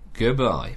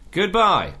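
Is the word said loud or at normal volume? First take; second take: normal; loud. First: The word is said at normal volume. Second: The word is said loudly. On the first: "Say goodbye again" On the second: "Say it louder"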